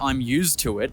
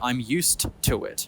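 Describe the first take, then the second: First: The word used ends with a Z-like sound. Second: The word used ends with an S-like sound. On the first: The speaker calls it wrong. "they don't say" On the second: The speaker calls it right. "they say"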